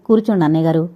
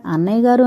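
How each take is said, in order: First: Said in the usual way. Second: Affectionate. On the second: A narrator's reading. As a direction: say అన్నయ్య గారు with gentle affection. (ఆప్యాయంగా పిలుపు) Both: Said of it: "వాత్సల్యపూరితంగా".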